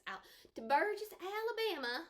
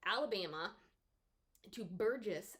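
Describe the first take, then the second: First: Southern accent. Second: Said in the usual way. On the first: Shown as a demonstration. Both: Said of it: "a bad Southern accent".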